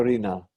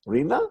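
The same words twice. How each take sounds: First: Rina with a strong final NA; stress on last syllable. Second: Rina with a strong RI; stress on first syllable. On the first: Teacher contrasting word and name, Rina stressed on NA. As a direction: hold back RI in Rina, hit NA. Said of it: "as opposed to Rina". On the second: Teacher contrasting name and word, Rina stressed on RI. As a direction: hit RI in Rina, drop the NA. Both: Shown as a demonstration.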